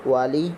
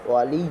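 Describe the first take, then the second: Both takes have the same delivery.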